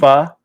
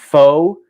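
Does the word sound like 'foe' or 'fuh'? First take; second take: fuh; foe. First: The vowel is a short 'uh' sound. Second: The vowel is a long 'oh' sound. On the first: The speaker calls it right. "F A. That's how you would pronounce it properly" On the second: The speaker calls it wrong. "It's not pho"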